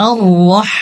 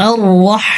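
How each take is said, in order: Both takes have the same delivery.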